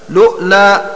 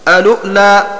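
First: It opens directly with lu and a glottal stop. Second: It opens with a vowel, then lu and a glottal stop. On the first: "بلام مضمومة وهمزة ساكنة وترك همزة الوصل" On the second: "بهمزة الوصل وبعدها لام مضمومة وبعد اللام همزة ساكنة"

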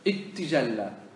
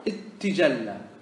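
The two takes are said the same way.

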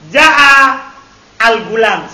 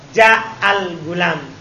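First: A glottal stop is pronounced before al. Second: The glottal stop is dropped and words link. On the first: This is the original underlying form. "seharusnya begitu. Karena hamzah khotin" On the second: This is how people actually say it. "akhirnya dijadikan hamzah apa? Hawasol. Jadi mereka bilang apa?"

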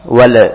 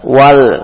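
First: The final l ends with a bouncing echo. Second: The final l ends smoothly without echo. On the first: The speaker calls it wrong. "biasanya sering terjadi kolkola. Wal, jangan" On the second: The speaker calls it right. "jangan dipantulkan. Tapi langsung masuk ke lam"

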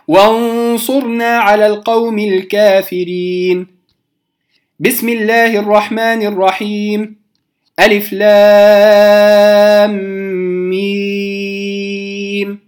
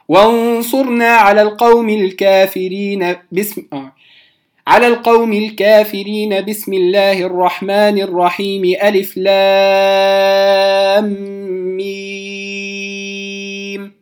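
First: There is a pause after each of the three parts. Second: All three parts run together without any pause. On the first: "هذا قطع الجميع" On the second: "وصلت الثلاثة"

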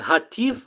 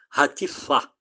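First: The stress falls before the last syllable. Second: The stress falls on the last syllable. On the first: The speaker calls it wrong. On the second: The speaker calls it right.

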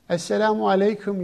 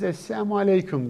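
First: The greeting is pronounced clearly and fully. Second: The greeting is pronounced vaguely and slurred. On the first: It is a wish of peace. The speaker calls it right. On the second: It is a curse wishing harm on the listener. The speaker calls it wrong.

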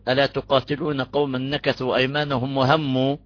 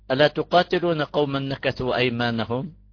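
First: The reading stops right after 'wa hammu'. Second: The reading stops right after 'aymanahum'. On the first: The stop leaves the next clause unfinished. The speaker calls it wrong. "ونوقف هون، هذا قبيح" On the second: The stop falls where the meaning is complete. The speaker calls it right. "إن وقفنا هون هذا وقف حسن"

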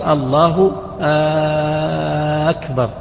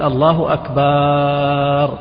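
First: The opening vowel of akbar is drawn out long. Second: The vowel after the b is drawn out long. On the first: It becomes a question. "أو همزة أكبر" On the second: The word becomes a name for a drum. "مد الألف التي بعد الباء"

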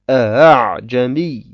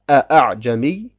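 First: The second hamza is softened and eased. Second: The second hamza is fully pronounced. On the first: The speaker calls it right. "bei der zweiten Hamza Tashil anwenden und sagen" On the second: The speaker calls it wrong. "dass man die Hamza ausspricht"

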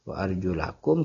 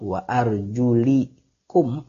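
First: The vowel before -kum is an a sound. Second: The vowel before -kum is an i sound. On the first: The feet are grouped with the face and hands to be washed. "bacaan yang memang jadi qiraat kita kebanyakan wa arjulakum" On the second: The feet are grouped grammatically with the head. "kalaupun kita baca jar, jar itu kasrah"

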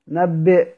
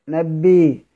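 First: The word ends with a glottal stop. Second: The final glottal stop becomes a long vowel.

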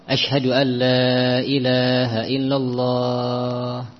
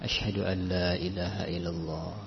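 First: The phrase is said in a loud, raised voice. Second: The phrase is said in a soft, low voice. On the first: "Kemudian dia mengulangi lagi" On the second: "dengan lirih"

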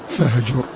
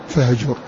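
No difference in how they are said.

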